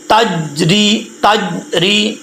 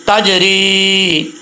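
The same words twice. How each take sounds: First: تجری without the bounce on jeem; wrong pronunciation. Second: تجری very slowly with the jeem bouncing back; qalqalah demo. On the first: Teacher shows the pupils the wrong reading. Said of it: "یہ غلط پڑھا جا رہا ہے". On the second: Teacher models the correct qalqalah for pupils. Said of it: "قلقلہ کے لیے آواز کا لوٹنا لازمی ہے". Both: Shown as a demonstration.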